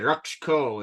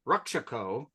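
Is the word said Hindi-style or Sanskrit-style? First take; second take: Hindi-style; Sanskrit-style. First: The middle vowel is dropped, Hindi-style. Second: Every vowel of the word is pronounced fully. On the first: The speaker calls it wrong. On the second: The speaker calls it right.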